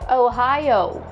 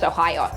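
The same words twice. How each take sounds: First: The diphthongs are relaxed and drawn out. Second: The diphthongs are rushed and clipped short. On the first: The speaker calls it right. "Don't try to speed up your speech on diphthongs. Relax and enjoy them" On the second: The speaker calls it wrong. "Not just Ohio"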